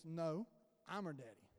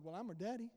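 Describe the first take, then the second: First: Low, hushed, firm correction; Holy Spirit's correction. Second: Softly protesting, rising at the end; retold mild protest. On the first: Retold or imitated. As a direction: drop low and soft to correct, imitating a divine voice. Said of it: "He goes". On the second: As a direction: put in a quiet, questioning objection. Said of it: "I'm like".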